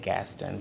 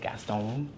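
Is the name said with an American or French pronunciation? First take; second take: American; French. First: The name is said the North Carolina way. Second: The name is said the French way.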